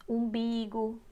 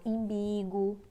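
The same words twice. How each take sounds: First: Said in the usual way. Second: Imbigo with an I for the first U; common mispronunciation. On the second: Shown as a demonstration. Teacher showing how people get umbigo wrong, saying imbigo. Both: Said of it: "aí falo imbigo".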